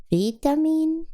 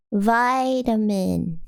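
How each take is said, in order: First: Vitamin? with "vee" and a rise; questioning VEE-tamin. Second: Vitamin with "vy" as in "my", very slow; slow VY-tamin. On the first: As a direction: try Vitamin? with a long ee, asking. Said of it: "Vitamin is British". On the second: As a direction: drag out Vitamin with an eye sound. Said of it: "Vitamin is American". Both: Shown as a demonstration.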